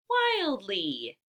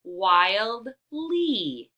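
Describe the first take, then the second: First: Said in the usual way. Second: Word in two parts. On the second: Shown as a demonstration. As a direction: wildly split as "wild, lee" with a gap. Teacher sounds out parts before blending.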